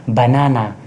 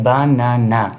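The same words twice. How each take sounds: First: Said in the usual way. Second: banana slowly split as ba-na-na; syllable by syllable. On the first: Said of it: "तीन syllable है, लेकिन ऐसे लिखा जाता है". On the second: Shown as a demonstration. Teacher showing three syllables, word broken into beats. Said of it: "तीन syllable है".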